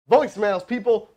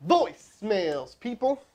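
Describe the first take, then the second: First: Said in the usual way. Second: "Voicemails" stretched out slowly, then "people" rising higher; drawn out. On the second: Shown as a demonstration. To his stream viewers, stressing the lesson with a slow "Voicemails" and a rising "people".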